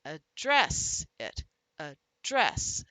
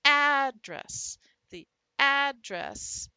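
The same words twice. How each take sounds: First: "address" with a light first syllable and a loud, long second; stress on second syllable. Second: "Address" punched hard on its first syllable, loud and high; stress on first syllable. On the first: Teacher shows students the verb by punching, second syllable of "address" stressed. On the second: Teacher shows students the noun by punching, first syllable of "Address" stressed. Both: Shown as a demonstration. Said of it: "show by punching the various syllables".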